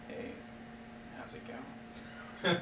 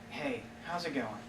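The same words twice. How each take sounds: First: It is said in a flirtatious, suggestive way. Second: It is said in a plain, friendly way.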